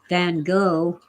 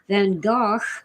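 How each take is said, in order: First: The name is said the usual American way. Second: The name is said in a non-American way.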